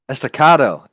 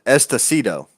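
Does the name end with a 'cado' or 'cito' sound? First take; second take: cado; cito. First: The name ends with a 'cado' sound. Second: The name ends with a 'cito' sound. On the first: The speaker calls it right. "There it is" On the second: The speaker calls it wrong. "I have been saying it wrong"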